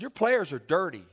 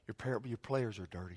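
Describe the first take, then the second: First: It is said firmly but not yelled. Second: It is said softly and very politely. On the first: "the truth lies somewhere in the middle" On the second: "I said it very politely"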